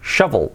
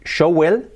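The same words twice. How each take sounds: First: Shovel as SHA-vol, with a real v; pronunciación correcta. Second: Shovel misread as SHOW-well; pronunciación incorrecta. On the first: (shovel con uve, 'sha-vol') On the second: (shovel dicho como 'show-uel') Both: Shown as a demonstration. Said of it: "Cambia mucho decir shovel a".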